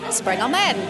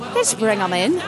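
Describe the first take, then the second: First: It is said in a British accent. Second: It is said in an Irish accent.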